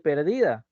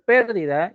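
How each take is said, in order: First: "perdida" stressed on DI; stress on middle syllable. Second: "pérdida" stressed on PÉR; stress on first syllable. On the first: Teacher contrasting two different words, "perdida" stressed on DI. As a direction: lean on the second syllable of "perdida". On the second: Teacher contrasting two different words, "pérdida" stressed on PÉR. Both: Shown as a demonstration. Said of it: "Son dos cosas diferentes".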